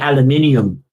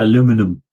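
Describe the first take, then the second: First: It is said the British way. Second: It is said the American way. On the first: The speaker calls it right. "Proper Queen's English. We have to say aluminium" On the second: The speaker calls it wrong. "not aluminum"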